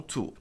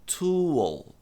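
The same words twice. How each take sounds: First: TOOL as "too"; wrong tool without L. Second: TOOL as "too-ul"; final L sounded. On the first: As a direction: drop the L from "tool". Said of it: "E não tool". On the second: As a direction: stretch "tool" onto its dark L. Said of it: "pronunciar esse L no final". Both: Shown as a demonstration.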